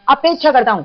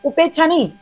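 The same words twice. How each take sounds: First: अपेक्षा pressed as the right word; correcting the word, stressing अपेक्षा. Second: उपेक्षा said high and firm to reject it; teacher correcting a word, stressing उपेक्षा. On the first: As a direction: lean on अपेक्षा, then fall. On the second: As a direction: lift and press उपेक्षा as the wrong word. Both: Shown as a demonstration. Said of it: "मैं".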